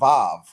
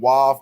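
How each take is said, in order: First: The word begins with a V sound. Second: The word begins with a W sound. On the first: This is the modern form of the letter name. "not Vav. Vav is modern" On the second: This is the ancient form of the letter name. "all say um, Wav also"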